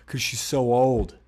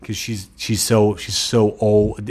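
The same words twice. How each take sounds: First: Put-on old drawn out and falling; stress on old. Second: "so" slowed and hit hard; stress on so. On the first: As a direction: lean into the word old, slowly. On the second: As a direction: drag out "so" before old. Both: Shown as a demonstration. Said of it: "get it?".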